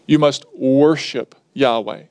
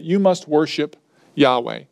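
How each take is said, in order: First: Worship leaned on, the key word of the line; stress on worship. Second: Said in the usual way. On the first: Shown as a demonstration. Preacher telling the congregation what to do, stress on worship. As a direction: land the weight on worship, not on you. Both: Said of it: "the emphasis is on the word worship".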